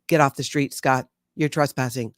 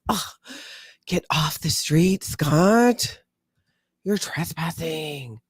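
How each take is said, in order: First: It sounds flat and robotic. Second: It sounds apathetic and frustrated.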